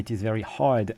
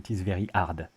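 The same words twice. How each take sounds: First: The h in hard is pronounced. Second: The h in hard is dropped. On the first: "I don't say it is very hard" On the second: "I say it is very hard"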